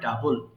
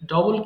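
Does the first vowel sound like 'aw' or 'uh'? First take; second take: uh; aw. First: The first vowel is an open 'uh' sound. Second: The first vowel is a rounded 'aw' sound. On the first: The speaker calls it right. "এটাকে বলতে হবে ডাবল" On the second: The speaker calls it wrong. "এটাকে অনেকে ভুল করে ডবল বলে, ... ডবল কিন্তু এটা সঠিক উচ্চারণ নয়"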